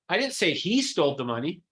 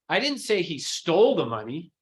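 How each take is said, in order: First: The stress falls on the word he. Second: The stress falls on the word stole. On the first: Someone else stole it. "Someone else" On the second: He might have borrowed it. "It's stole"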